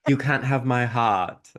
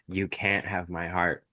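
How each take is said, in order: First: It is said in a put-on British accent. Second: It is said in the speaker's usual accent.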